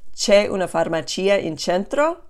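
The voice rises at the end, like a question.

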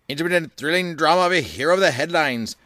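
It is read in a 1930s radio announcer voice.

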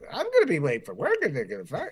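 It is said in a silly voice.

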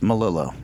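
The name is said with an English pronunciation. "English, it's Melillo"

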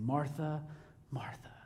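It is said earnestly, with deep sincerity.

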